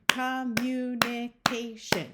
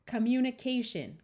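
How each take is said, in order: First: "Communication" slowly tapped out in five separate beats; syllable by syllable. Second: Said in the usual way. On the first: Shown as a demonstration. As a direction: break "Communication" into each syllable, evenly spaced. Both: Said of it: "You can count those".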